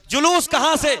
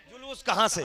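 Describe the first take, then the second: First: जुलूस called out high and loud; rallying shout of जुलूस; shouted question. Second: Said in the usual way. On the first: Shown as a demonstration. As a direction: fling जुलूस कहां से at the crowd. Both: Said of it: "आखिरी point बस".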